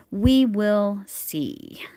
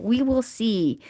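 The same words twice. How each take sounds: First: Very slow, loud "We will see"; drawn out. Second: Louder, higher "we will see"; emphatic. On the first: Unsure the yarn will last, drawn-out "We will see". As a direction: stretch each word of "We will see". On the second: Unsure the yarn will last, emphatic "we will see". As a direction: hit "we will see" firmly. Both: Real, not acted. Repeats it, second time drawn out.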